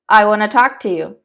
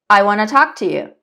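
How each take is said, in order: First: 'Want to' is run together as 'wanna'. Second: The same.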